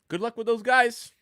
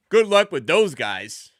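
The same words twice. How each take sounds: First: It sounds genuine and sincere. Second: It sounds mocking and sarcastic. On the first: The team is good and a real challenge. "It's a good team. Good luck with them" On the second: The team has no chance of winning. "Oh, you think you're going to win with that team?"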